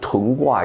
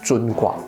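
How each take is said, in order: First: The first word begins with a plain t sound. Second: The first word begins with a curled-tongue zh sound. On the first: It suggests settling and stationing troops. "你念成屯卦也没什么不对" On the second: It stresses hardship and difficulty. "有卷舌的尊哈"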